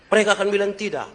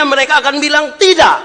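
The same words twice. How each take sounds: First: Said in the usual way. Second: High, loud shouted line; shouting from the pulpit; preaching shout. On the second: Acted. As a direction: belt it out to the hall. Preacher repeats line for effect.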